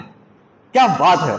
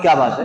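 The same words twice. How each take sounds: First: It is said as an amazed, admiring exclamation. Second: It is said as a plain asking question. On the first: The speaker praises something wonderful. "तो ये तारीफ के माने में आएगा" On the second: The speaker asks what is being talked about. "तो यहां सवाल मतलब है"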